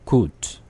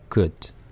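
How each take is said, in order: First: The vowel is a long, rounded 'oo'. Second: The vowel is a short, weak sound. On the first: The speaker calls it wrong. "그 대신 우로 한번 해 볼게요" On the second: The speaker calls it right. "그다음에 으로"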